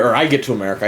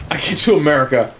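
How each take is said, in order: First: The word I hit a little harder than the rest; stress on I. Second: Said in the usual way. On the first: Shown as a demonstration. Telling viewers it was only him, stressing I. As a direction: correct yourself by leaning on I, not we. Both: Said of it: "I keep saying we, but it's just me".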